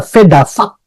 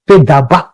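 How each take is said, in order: First: The middle consonant sounds like 'v'. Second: The middle consonant sounds like 'b'. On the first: This is the Masoretic reading. "di dalam Masoretik itu ada vedavak" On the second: This is the Samaritan reading. "dalam Samarianya adalah vedabak"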